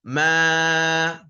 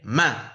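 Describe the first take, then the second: First: The vowel is long. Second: The vowel is short. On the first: "dibaca panjang" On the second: "dibaca pendek"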